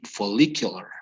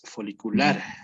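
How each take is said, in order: First: It is pronounced the English way. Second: It is pronounced the Spanish way. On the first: "In in English, it would be follicular" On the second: "In Spanish, it's different, right? It's folicular"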